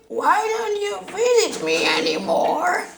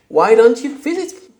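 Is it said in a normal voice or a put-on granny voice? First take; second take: granny voice; normal voice. First: It is said in a put-on granny voice. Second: It is said in his normal voice.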